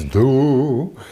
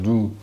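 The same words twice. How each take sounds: First: The vowel is said with a wide open mouth. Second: The vowel is said with a fairly closed mouth. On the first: The speaker calls it right. "you do when you sing need to learn to open your mouth" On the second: The speaker calls it wrong. "it's not do"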